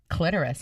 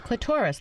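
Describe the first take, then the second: First: It is said not rhyming with Dolores. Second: It is said to rhyme with Dolores. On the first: The speaker calls it wrong. "People do say clitoris also, but I don't think it's right" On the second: The speaker calls it right. "It's clitoris, like Dolores"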